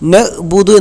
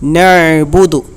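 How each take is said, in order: First: The middle consonant is a plain glottal stop. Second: The middle consonant is a deep throat ain. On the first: The speaker calls it wrong. "നഅ്ബുദു എന്ന് പറയാൻ പാടില്ല. നഅ്ബുദു എന്ന് പറഞ്ഞാൽ അത് ഹംസയായിട്ട് മാറും" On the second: The speaker calls it right. "ഐന് സുക്കൂൻ വരുമ്പോൾ നഅ്ബുദു"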